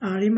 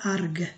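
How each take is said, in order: First: The word ends with a y-like sound. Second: The word ends with a hard g sound. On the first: The speaker calls it right. "এটা হবে এরকম" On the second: The speaker calls it wrong. "এটা কিন্তু হবে না আর্গ এরকম হবে না"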